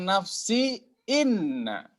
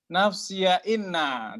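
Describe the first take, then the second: First: The word nafsi ends without an added a vowel. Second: The word nafsi ends with an added ya sound.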